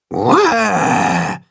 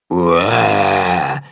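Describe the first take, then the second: First: Higher mock monster roar; demonstrated roar. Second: Lower, deeper copy of the mock roar; repeated roar. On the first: Tacho demonstrates the roar to Willi, mock roar. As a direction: show him how to roar scary. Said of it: "macht Tacho ihm vor". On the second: Willi repeats the roar after Tacho, lower mock roar. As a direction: Willi tries the roar himself. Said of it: "wiederholt Willi". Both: A narrator's reading.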